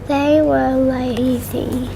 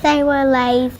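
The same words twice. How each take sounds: First: It is read plainly, without extra force. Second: It is read louder, with more force.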